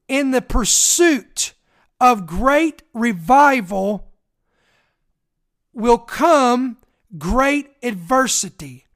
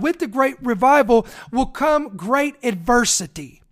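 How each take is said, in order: First: It is said very slowly. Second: It is said at normal speed.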